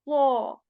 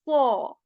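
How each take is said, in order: No difference in how they are said.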